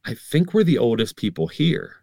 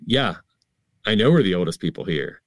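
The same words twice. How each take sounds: First: Slightly raised, wondering remark; tentative observation. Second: Quick, offhand confirmation; nonchalant. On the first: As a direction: float it to a friend as a mild realization. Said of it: "I said to him, I was like". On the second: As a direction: toss it off as an obvious fact. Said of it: "very nonchalantly said". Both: Acted.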